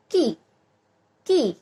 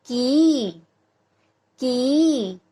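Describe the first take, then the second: First: की cut short with a quick i, as कि; short, jerky vowel. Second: की with a long, held ee; long vowel. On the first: Teacher showing how the small i sign sounds, short and jerky. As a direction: say की as a brief jerk, no lengthening. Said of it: "झटकेदार होता है". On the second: Teacher contrasting the big ee sign with the small, long vowel. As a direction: draw out the ee in की before letting it drop. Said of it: "जो उच्चारण है वो लंबा जाएगा". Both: Shown as a demonstration.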